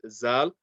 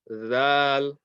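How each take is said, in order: First: It starts with a z sound. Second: It starts with a th sound, as in this. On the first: The speaker calls it wrong. "Zal is incorrect" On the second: The speaker calls it right. "tip of the tongue touching the tip of the top two teeth"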